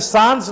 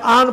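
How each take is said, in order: First: The word begins with an s sound. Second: The word begins without an s sound. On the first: The speaker calls it wrong. "सांस नहीं इसको पढ़ा जाता है" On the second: The speaker calls it right. "आन पढ़ा जाता है। एस कंप्लीटली साइलेंट है"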